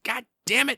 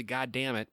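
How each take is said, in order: First: Sudden high, loud curse, voice jumping up; angry curse. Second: Said in the usual way. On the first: Retold or imitated. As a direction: snap out the curse in a flash of temper. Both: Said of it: "I said".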